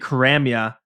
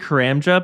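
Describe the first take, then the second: First: The middle consonant sounds like a y. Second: The middle consonant sounds like a j. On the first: "I said Karamia" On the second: "I usually say Karamja"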